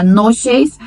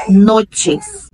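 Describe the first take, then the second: First: "noches" as a Brazilian would say it; Portuguese pronunciation. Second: "noches" with a clear ch sound; Spanish "noches" with ch; Spanish pronunciation. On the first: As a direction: say "noches" ending in sh, not ch. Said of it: "Em português seria noches". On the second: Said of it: "mas em espanhol". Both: Shown as a demonstration.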